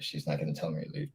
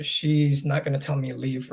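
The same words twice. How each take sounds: First: Much lower and softer, hurried, half to himself; quiet quick aside. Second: Said in the usual way. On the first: Real, not acted. Repeating to himself about his mom, quiet rushed aside. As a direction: drop it under your breath, quickly.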